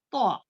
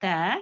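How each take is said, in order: First: तो thick and rounded, back tongue raised; heavy to. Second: त light, fronted vowel, back tongue low; thin ta. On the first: Teacher contrasting two t letters, thick sound. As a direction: fill the mouth on तो. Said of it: "तो जो है मोटे पढ़े जाने". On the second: Teacher contrasting two t letters, thin sound. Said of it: "पीछे जड़ रहती है वो नीचे ही". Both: Shown as a demonstration.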